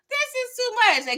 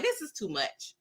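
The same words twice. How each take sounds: First: Much higher exasperated cry; exasperated outburst. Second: Said in the usual way. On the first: Retold or imitated. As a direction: throw it up high in disbelief. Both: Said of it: "I'm like".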